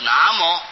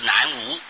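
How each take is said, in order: First: The second syllable is pronounced mo. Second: The second syllable is pronounced wu. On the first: The speaker calls it right. "所以要念作南摩，应当是以客家话来念最正确了" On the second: The speaker calls it wrong. "他就不至于念作南无"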